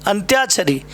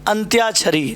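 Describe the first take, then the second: The two takes are said the same way.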